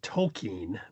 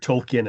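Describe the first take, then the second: First: The name has its original, careful pronunciation. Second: The name has its common, everyday pronunciation. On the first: "correctly pronounced" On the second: "as we mostly pronounce it"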